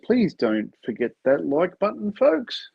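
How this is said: It is said in a negative, flat tone.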